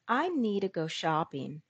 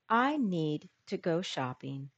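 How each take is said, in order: First: Need to is blended into needa. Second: Need to is said as two full words. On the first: "Now, informal English. ... Need plus to became needa" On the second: "Listen to the following sentence in standard English"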